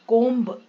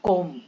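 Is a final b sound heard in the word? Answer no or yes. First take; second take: yes; no. First: The word ends with an audible b sound. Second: The word ends in m with no b sound. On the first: The speaker calls it wrong. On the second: The speaker calls it right.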